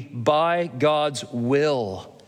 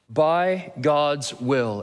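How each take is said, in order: First: Said in the usual way. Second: By God's will, each word drawn out very slowly; slow emphatic repeat. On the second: Shown as a demonstration.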